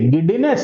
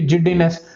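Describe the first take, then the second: First: The word begins with a hard g sound. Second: The word begins with a j sound. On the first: "ಸಿ English ದಲ್ಲಿ ಇದನ್ನ ಗೆಡ್ಡಿನೆಸ್ ಅಂತಾರೆ" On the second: "ಕೆಲವೊಂದು ಜನ ಇದನ್ನ ಜಿಡ್ಡಿನೆಸ್ ಅಂತ ಹೇಳಿ ಕರೀತಾರೆ"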